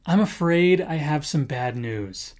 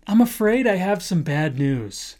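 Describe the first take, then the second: First: Soft, lower sorry-to-tell-you tone; softer lower bad-news opener; gentle delivery. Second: Said in the usual way. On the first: Shown as a demonstration. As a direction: break it gently. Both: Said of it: "a good way to preface your statement is by saying".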